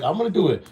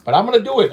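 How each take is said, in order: First: Said in the usual way. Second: Louder, higher, firm vow; emphatic promise. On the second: Real, not acted. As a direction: punch it out like a promise to the fans.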